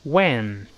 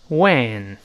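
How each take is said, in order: First: When with a wide-open e vowel. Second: When said with a wide-open e, not 问; careful model When. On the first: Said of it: "再读一遍". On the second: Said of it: "而不要读问啊". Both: Shown as a demonstration.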